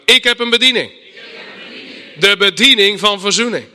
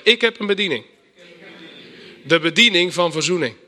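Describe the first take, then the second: First: Much louder, declaring it with full conviction; more conviction. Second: Said in the usual way. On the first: Shown as a demonstration. Congregation repeats after preacher, loud convinced declaration. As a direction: proclaim it like you mean it. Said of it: "Iets meer overtuiging". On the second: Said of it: "Zeg eens met me mee".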